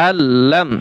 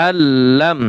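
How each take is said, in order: No difference in how they are said.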